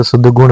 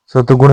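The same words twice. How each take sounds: First: The right way: सद्गुण, sad-gun; correct form. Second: सतगुण said with a plain त, no द sound; the wrong way: सतगुण, hard t; wrong form. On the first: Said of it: "सद्गुण होता है". (सद्गुण, सही उच्चारण, द के साथ) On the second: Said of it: "सतगुण नहीं होता है". (सतगुण, गलत उच्चारण, त के साथ) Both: Shown as a demonstration.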